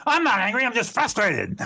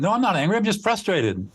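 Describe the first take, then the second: First: Much higher, sharp and huffy "I'm not angry"; indignant denial. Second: Said in the usual way. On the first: Shown as a demonstration. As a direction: snap back, offended at the very idea. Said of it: "Like that, right?". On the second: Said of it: "Or more likely, you would say".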